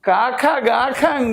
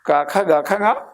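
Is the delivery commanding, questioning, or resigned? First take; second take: resigned; questioning. First: It is said in a resigned, accepting way. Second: It is said in a questioning, hesitant way. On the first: The speaker agrees to leave. "ഞാൻ പോയിക്കോളാം" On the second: The speaker asks whether they should leave. "ഞാൻ പോണോ?"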